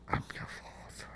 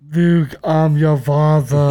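First: It is said quietly. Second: It is said loudly.

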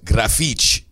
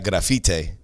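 First: The name ends with a 'chee' sound. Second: The name ends with a plain t sound.

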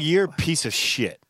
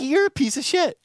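First: It is said in a harsh, insulting tone. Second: It is said in a light, friendly tone. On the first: It comes across as a real insult. The speaker calls it wrong. "The tone was wrong" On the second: It is meant as a harmless joke. The speaker calls it right. "I meant to say"

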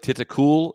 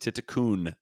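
First: The name ends with an L sound. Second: The name ends with an N sound. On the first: The speaker calls it wrong. "even though it looks like Titikul" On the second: The speaker calls it right. "it is Titikun with an N is how you would pronounce it"

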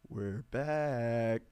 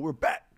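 First: It is said quietly and flatly. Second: It is screamed with high energy.

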